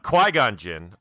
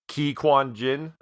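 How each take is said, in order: First: The first part of the name does not sound like 'quinoa'. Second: The first part of the name sounds like 'quinoa'. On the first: The speaker calls it right. "it is uh" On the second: The speaker calls it wrong. "I pronounced it like quinoa"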